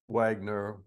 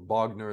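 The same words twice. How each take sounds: First: The name is pronounced the English way. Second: The name is pronounced the Russian way.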